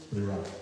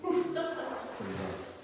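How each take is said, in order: First: Said in the usual way. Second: Much higher and slow, a drawn-out mock wail; mock dismay. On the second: Reader judging his own bad German accent, mock wail. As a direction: whine it out high and long, as a joke.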